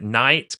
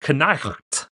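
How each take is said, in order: First: It starts with n and has no throat sound. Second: It has a k sound and a throat sound. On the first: This is how the word is said today. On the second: This is an even older way the word was probably said.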